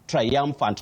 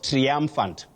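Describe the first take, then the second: First: The first syllable glides across three vowel sounds. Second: The first syllable lacks the three-vowel glide. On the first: The speaker calls it right. "There is that glide on three vowel sounds" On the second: The speaker calls it wrong. "not triumphant"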